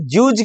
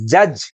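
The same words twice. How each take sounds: First: "जूज" with a long oo vowel; wrong long-U reading. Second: "जज" with a short uh vowel, pitched lower; correct short U. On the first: Teacher questions the misreading, "जूज" with long oo. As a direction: say "जूज", oo in place of uh. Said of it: "आप यहाँ जूज क्यों नहीं बोल रहे". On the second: Teacher gives students the answer, "जज" with short uh. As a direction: say "जज" short, uh rather than oo. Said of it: "इसे बोलेंगे क्या". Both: Shown as a demonstration.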